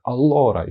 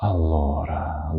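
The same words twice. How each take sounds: First: Raised, emphatic presenter's opener; attention-getting. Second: Slow, drawn-out pensive delivery; Professor Snape. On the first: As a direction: call the room to attention. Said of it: "привести увагу, так, там, вийшла на подіум". (привертаючи увагу) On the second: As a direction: draw it out, deep in thought. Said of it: "задумчиво, як професор Снейп". (задумливо) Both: Shown as a demonstration.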